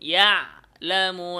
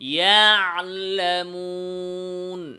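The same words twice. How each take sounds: First: The ain sound is cut off abruptly. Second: The ain sound is held slightly, not stopped. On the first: The speaker calls it wrong. "ভুল উচ্চারণ হচ্ছে ইয়ালামুন। ইয়ালামুন, আওয়াজকে বন্ধ করা।" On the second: The speaker calls it right. "সঠিক উচ্চারণ।"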